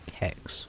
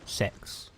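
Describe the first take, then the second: First: It is one syllable starting with a K sound. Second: It is one syllable starting with an S sound. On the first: "people would pronounce it Kex" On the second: "or Sex"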